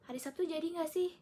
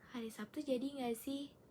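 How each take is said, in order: First: The question sounds harsh and irritated. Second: The question sounds calm and neutral. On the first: This is how the reader took the message. "kakak saya menafsirkan saya dengan intonasi seperti ini" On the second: This is how the sender meant the message. "intonasi saya dari sisi saya seperti ini"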